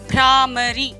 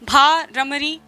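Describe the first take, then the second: First: The bh is quick and joined straight to r. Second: The bh is a full separate syllable before r. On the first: The speaker calls it right. "आप इसका उच्चारण सही तरीके से करें" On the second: The speaker calls it wrong. "ये तो उच्चारण ही गलत है"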